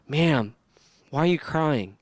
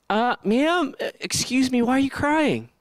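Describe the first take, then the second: First: Calm, measured, respectful question; unhurried courteous address. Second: High, hesitant, awkward interruption; tentative angel caught off script; flustered angels. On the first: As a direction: ask her gently, without condescension. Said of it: "It's super respectful". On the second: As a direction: pipe up uncertainly, pitched well above usual. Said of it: "They couldn't even say their line". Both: Acted.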